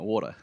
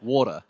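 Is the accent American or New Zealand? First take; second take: American; New Zealand. First: It is said in an American accent. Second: It is said in a New Zealand accent.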